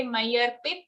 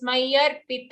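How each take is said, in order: First: मय्यर्पित ending on a bare t, no vowel; मय्यर्पित said quickly with a vowelless final t; half त. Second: मय्यर्पित ending in a full "ta"; मय्यर्पित with its final त said whole, as "ta". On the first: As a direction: cut the last त of मय्यर्पित to a half sound. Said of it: "we are saying a half त". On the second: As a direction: sound the vowel after the last त in मय्यर्पित. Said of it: "a full त". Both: Shown as a demonstration.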